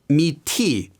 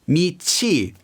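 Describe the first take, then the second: First: The second syllable begins with a t sound. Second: The second syllable begins with a ch sound. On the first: The speaker calls it wrong. "not 미티" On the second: The speaker calls it right. "it becomes chi"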